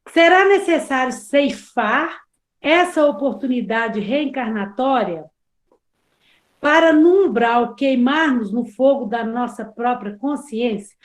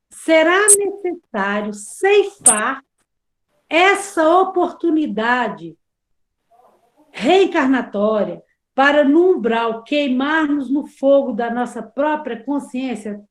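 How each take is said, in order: First: It is read at a normal speed. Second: It is read very slowly.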